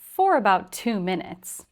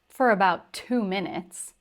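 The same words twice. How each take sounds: First: 'For' is said with its full vowel. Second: 'For' is reduced to a weak 'fur'. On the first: "the first time I pronounced it for" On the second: "the second time I pronounced it fur"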